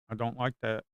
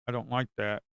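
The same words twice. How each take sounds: The two takes are said the same way.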